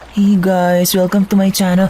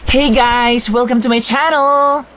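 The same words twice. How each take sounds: First: It is said in a flat, lame way. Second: It is said with lots of energy.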